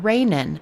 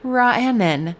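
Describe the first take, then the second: First: The name is said as two syllables, 'Rai-nin'. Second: The name is said as three syllables, 'Ra-a-nan'. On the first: The speaker calls it wrong. "I want to say Sarah Rainin" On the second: The speaker calls it right. "she told me how to pronounce it, and it is Ra'anan"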